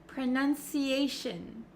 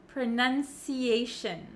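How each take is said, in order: No difference in how they are said.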